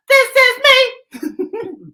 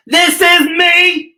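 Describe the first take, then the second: First: Very high, drawn-out sung line; sung, belt it out as a show tune. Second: High, loud, slow declaration; a slow proud anthem shout. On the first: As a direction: sing it like a big show tune. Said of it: "It's a song, too". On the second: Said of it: "what you have to say?". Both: Shown as a demonstration.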